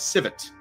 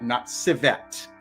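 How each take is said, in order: First: The second syllable is short and abrupt. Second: The second syllable is long, like 'ette'. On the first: The speaker calls it right. "I have only known it as civet ... That second syllable is just a an abrupt syllable" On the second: The speaker calls it wrong. "not uh, E T T E. That's what it sounds like it would be spelled"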